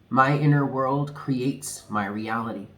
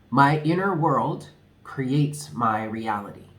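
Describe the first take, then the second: First: It is said at normal speed. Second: It is said slowly.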